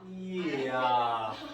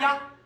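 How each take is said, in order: First: It is said slowly as two separate vowels. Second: It is said quickly as one gliding syllable.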